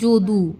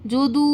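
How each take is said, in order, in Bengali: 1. শেষ স্বরধ্বনিটি ছোট ও সাধারণ। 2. শেষ স্বরধ্বনিটি দীর্ঘ টানে উচ্চারিত।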